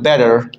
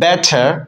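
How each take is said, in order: First: The middle consonant is a soft d sound. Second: The middle consonant is a crisp t sound. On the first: This is how Americans say it. "আমেরিকানরা বলে বেটার" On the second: This is how local speakers say it. "আমরা বলি বেটার"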